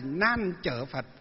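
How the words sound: The middle word is read with the 'chở' sound. This is the Southern reading of the name. "miền Nam là Nan Chở Phật"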